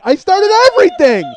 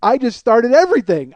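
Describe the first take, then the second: First: Very high, very loud scream; screamed realisation. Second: Raised, loud voice as it dawns; alarmed realisation. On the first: Guard realising he set it all off, screamed realisation. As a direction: blow up into a full-force shriek of dismay. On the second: Guard realising he set it all off, alarmed realisation. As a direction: exclaim it in dismay, not yet at full pitch. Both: Retold or imitated.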